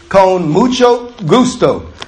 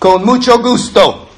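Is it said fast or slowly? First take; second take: slowly; fast. First: It is said slowly and carefully. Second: It is said fast, like a native speaker.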